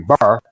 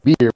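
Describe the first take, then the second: First: The word is said in a local country accent. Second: The word is said in a standard pronunciation. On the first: This is how local country people say it. "we say bar" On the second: This is how people elsewhere say it. "We don't say beer"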